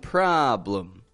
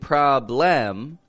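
First: The second syllable has a reduced, quick 'uh' vowel. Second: The second syllable has a full, clear 'o' vowel. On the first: The speaker calls it right. "we're going problem, given a blum" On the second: The speaker calls it wrong. "Instead of saying problem"

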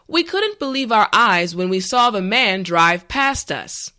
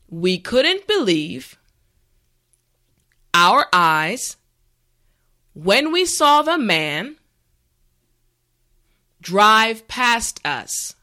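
First: The sentence is said at a regular pace. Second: The sentence is said slowly, for repeating. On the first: "the last time at a regular pace" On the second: "this time repeat after me"

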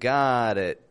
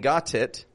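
First: The T in got is a quick flap. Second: The T in got is a clear, sharp T. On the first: The speaker calls it right. "but I'm saying got it" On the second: The speaker calls it wrong. "I'm not pronouncing the T in got as a T. I'm not saying got it"

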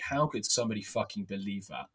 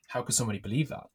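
First: It sounds incredulous and dismissive. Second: It sounds curious and open.

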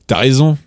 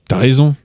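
First: Tu is shortened and merged into as. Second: The same.

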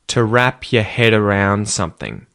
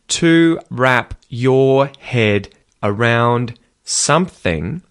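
First: The phrase is said quickly with reduced words. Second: The phrase is said at a normal, careful pace.

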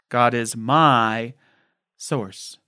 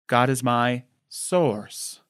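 First: The word "my" carries the main stress. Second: The word "source" carries the main stress.

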